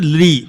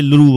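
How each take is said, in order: First: The syllable ends with an 'ee' vowel. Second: The syllable ends with an 'oo' vowel.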